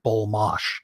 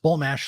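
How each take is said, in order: First: The last syllable has an 'ah' vowel, like 'gosh'. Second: The last syllable has a flat 'a' vowel, like 'cash'. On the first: It sounds fancier than the plain spelling. The speaker calls it wrong. "It's got to be something like bull mosh" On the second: It is said just as it is spelled. The speaker calls it right. "just bull mash the way it's spelled"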